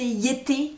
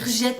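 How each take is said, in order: First: The name is pronounced the German way. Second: The name is pronounced the French way. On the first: "ça se prononce à l'allemand, donc ça doit se prononcer Yété" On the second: "on va dire Jette"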